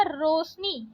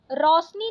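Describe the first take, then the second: First: Said in the usual way. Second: रोशनी said "rau-sni", open au; wrong vowel. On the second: Shown as a demonstration. Teacher rejecting a spelling, रोशनी with au vowel. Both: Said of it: "रोशनी नहीं होता".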